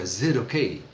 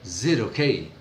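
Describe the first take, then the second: First: The first vowel is dropped, leaving a z sound. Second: The first vowel is dropped, leaving a z sound.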